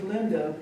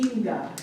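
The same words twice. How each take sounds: First: The first vowel is a short 'ih' sound. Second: The first vowel is a long 'ee' sound. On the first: "my name is Linda" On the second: "in Spanish it would be Linda. ... that I has an E sound"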